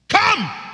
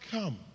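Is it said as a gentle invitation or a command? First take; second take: command; gentle invitation. First: It is said forcefully, as a command. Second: It is said softly, as a gentle invitation.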